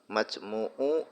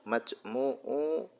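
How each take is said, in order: The two takes are said the same way.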